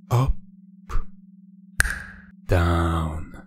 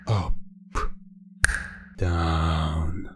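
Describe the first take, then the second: No difference in how they are said.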